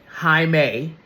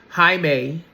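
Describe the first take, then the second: No difference in how they are said.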